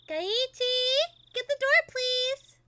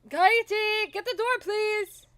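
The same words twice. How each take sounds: First: It is voiced like a boy. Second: It is voiced as the upbeat father.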